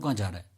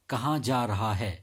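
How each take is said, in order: First: It is spoken very fast, with blurred words. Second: It is spoken at normal pace, every word clear. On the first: The speaker calls it wrong. "मैंने इतने fast से बोला" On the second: The speaker calls it right. "इसको इस तरीके से बोलना चाहिए नॉर्मली"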